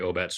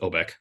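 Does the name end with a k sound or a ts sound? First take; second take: ts sound; k sound. First: The name ends with a ts sound. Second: The name ends with a k sound. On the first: This is how the brewery's name is really said. The speaker calls it right. "take off the C and add a T Z" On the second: This is how most people would guess it. The speaker calls it wrong. "ninety-nine percent of the people would pronounce it Obek"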